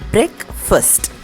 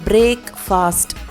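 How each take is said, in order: First: It sounds like neither break nor fast. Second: It sounds like the words break and fast. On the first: The speaker calls it right. "The correct pronunciation is breakfast. பிரேக்கும் கிடையாது, ஃபாஸ்ட்டும் கிடையாது" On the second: The speaker calls it wrong. "நம்ம பிரேக் ஃபாஸ்ட் அப்படின்னு சொல்லி தான் பழகியிருக்கோம்"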